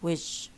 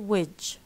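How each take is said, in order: First: The word ends in a voiced 'j' sound. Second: The word ends in a voiced 'j' sound.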